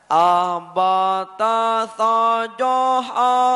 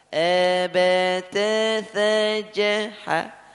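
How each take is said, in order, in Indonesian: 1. Vokalnya terdengar penuh, berat, dan terbuka. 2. Vokalnya terdengar ringan, sempit, dan tipis.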